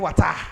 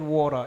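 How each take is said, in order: First: It is said in a Sierra Leonean accent. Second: It is said in an American accent.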